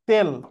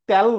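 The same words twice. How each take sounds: First: It has the standard vowel pronunciation. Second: It has the regional vowel pronunciation. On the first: The speaker calls it right. "এটা আসলে তেল" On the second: The speaker calls it wrong. "Noakhali, Chandpur, Comilla এলাকায় তেল বলে"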